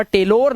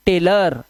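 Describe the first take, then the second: First: टेलोर said with a full o, as "tay-lor"; the mistake: टेलोर with a clear o; टेलोर stressing an o in the last syllable; wrong pronunciation. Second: टेलर said with a short weak vowel, "tay-ler"; the right way: टेलर, the o turned to a short a; टेलर like "tailor", no o at all; correct pronunciation. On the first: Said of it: "टेलोर नहीं". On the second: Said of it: "टेलोर नहीं, टेलर". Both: Shown as a demonstration.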